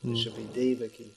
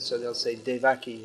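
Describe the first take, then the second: First: The stress is on the first syllable. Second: The stress is on the second syllable. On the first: The speaker calls it right. "It comes on the first syllable" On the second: The speaker calls it wrong. "the stress often comes on the penultimate syllable"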